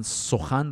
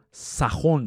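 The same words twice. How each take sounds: First: Said in the usual way. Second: Put-on سخن said as "sakhon", old style; old Persian "sa-KHON" for سخن; archaic pronunciation. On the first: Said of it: "یک نکته هم دربارهٔ تلفظ". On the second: Shown as a demonstration. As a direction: say سخن with a in the first syllable, o in the second. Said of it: "این واژگان تلفظ قدیمیشون".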